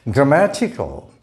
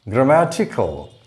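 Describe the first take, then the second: The two takes are said the same way.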